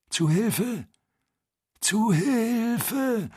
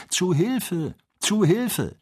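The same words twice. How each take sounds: First: High, drawn-out plea, weaker; plaintive call for help. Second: High, desperate call from afar; cry for help. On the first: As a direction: wail it, fading and pleading. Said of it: "ebenso klagend, aber schwächer". (klagender, schwächerer Hilferuf) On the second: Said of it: "Worte gerufen". (hoher verzweifelter Hilferuf) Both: Acted.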